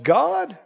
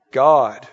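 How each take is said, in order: First: High, questioning GOD; surprised listener querying "God"; incredulous question. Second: Low, settled GOD; deep-pitched, matter-of-fact God; firm confirmation. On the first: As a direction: act out disbelief on the word God. Questioner doubts the answer given. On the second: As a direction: answer "God" as plain certainty. Testifier confirms the answer. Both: Acted.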